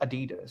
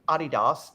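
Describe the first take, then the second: First: It is said with the North American pronunciation. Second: It is said with the European pronunciation. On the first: "In North America they pronounce it Adidas" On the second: "in Europe they pronounce it Adidas"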